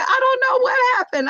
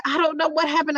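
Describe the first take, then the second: First: High, sing-song feigned cluelessness; teasing mom's fake innocence; mock innocence. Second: Mild mock innocence. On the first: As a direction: play dumb to tease her daughter. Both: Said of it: "I'm gonna go with this".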